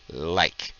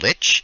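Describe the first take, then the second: First: The word ends with a k sound. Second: The word ends with a ch sound. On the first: This is how native German speakers usually say it. "People who say like are typically people who speak German as their first language" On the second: This is how native English speakers usually say it. "people who say lich most often have English as their first language"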